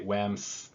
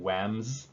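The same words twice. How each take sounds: First: The word ends with an s sound. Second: The word ends with a z sound. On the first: The speaker calls it wrong. "those feel more strange than the other way around" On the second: The speaker calls it right. "for whams, it's a z sound"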